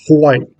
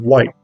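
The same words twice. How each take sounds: First: The w is preceded by a breathy h sound. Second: The w starts plainly with no breath. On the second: This is the neutral American way.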